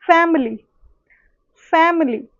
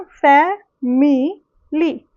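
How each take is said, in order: First: फैमिली said as two syllables, fem-li, dropping the middle i; फैमिली clipped to fem-li with the i swallowed; everyday syncopated pronunciation. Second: फैमिली said slowly with all three syllables, fa-mi-li; फैमिली as written, fa-mi-li; full spelling pronunciation. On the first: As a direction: say फैमिली the way people speak it, fem-li. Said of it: "लेकिन बोलते हम क्या है". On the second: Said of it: "हम फैमिली लिखते हैं". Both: Shown as a demonstration.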